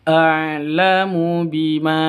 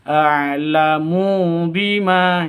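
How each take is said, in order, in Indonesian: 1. Vokalnya semuanya dibaca pendek. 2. Vokalnya dibaca panjang. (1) "Yang betul a'lamu bima, begitu. Jadi pendek semuanya" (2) "jangan dibaca a'lamu bima ya, salah"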